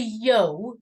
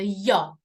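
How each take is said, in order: First: The vowel sound is drawn out long. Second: The vowel sound is cut short. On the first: The speaker calls it wrong. "it's never a yo" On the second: The speaker calls it right. "it's always a yo. We like to shorten the sound"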